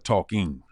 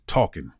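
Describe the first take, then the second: First: The ending is said with the full g sound. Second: The ending is said without the final g sound. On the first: This is the form the speaker's wife wanted. The speaker calls it right. "she says I'm better with the I N Gs now" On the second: This is how the speaker's home dialect says it. The speaker calls it wrong. "I would say talking instead of"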